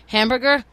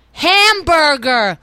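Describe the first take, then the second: First: Said in the usual way. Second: Hamburger stretched out, louder and higher, syllable by syllable; slow, loud, exasperated repeat. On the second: Shown as a demonstration. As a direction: spell out Hamburger slowly for the clerk. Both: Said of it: "let's say the word was hamburger".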